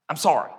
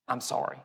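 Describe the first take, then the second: First: Said in the usual way. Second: Low, soft apology; contrasting tone. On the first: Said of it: "Our tone can communicate too". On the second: Shown as a demonstration. Preacher showing how tone changes an apology, low soft sorry. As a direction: say sorry quietly, dropping the voice. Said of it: "Two different things were just communicated".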